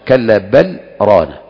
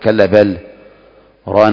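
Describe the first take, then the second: First: A brief pause comes without a breath. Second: The words are cut apart with a full break. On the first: The speaker calls it right. "لا" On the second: The speaker calls it wrong. "ما تقول كلا بل ران على قلوبهم فتفصل"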